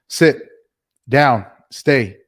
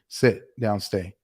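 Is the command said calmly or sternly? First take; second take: sternly; calmly. First: The command is said in a firm, stern voice. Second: The command is said in a relaxed, calm voice. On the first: The dog is still in training. "So you have to be stern" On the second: The dog already knows the commands. "then you can be a little more calm and say"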